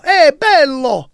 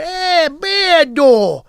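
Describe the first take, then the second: First: "Eh, bello" drawn out slowly, higher and louder, Italian style; Italian greeting a handsome man, slow and warm-toned. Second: "Eh, bello" very slow and much higher, Sicilian drawl. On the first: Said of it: "Italians would say bello". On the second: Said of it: "a Sicilian say". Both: Shown as a demonstration.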